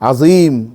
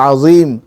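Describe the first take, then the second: The two takes are said the same way.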